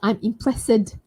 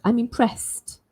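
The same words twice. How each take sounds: First: The final st sound is not clearly heard. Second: The final st sound is clearly heard. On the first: The speaker calls it wrong. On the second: The speaker calls it right. "You should hear the st sound"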